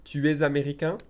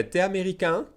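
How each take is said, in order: First: "Tu es" in full with a Z liaison, slowly; careful full form. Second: "T'es" said as a single syllable "te"; casual spoken contraction; fast contracted. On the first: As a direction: say both words, link the S. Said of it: "I'm saying this slowly". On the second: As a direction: drop the U, say it quickly. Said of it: "if I said it fast". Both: Shown as a demonstration.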